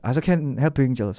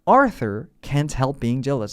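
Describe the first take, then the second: First: The words are rushed and carelessly slurred. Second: Each word is pronounced slowly and distinctly. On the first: The speaker calls it wrong. "막 막 발음 신경 안 쓰고" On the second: The speaker calls it right. "또박또박"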